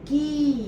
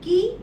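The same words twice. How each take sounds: First: The vowel is held out and long. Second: The vowel is cut off quickly and short. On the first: "की हा दीर्घ आहे" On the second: "की हा ऱ्हस्व आहे"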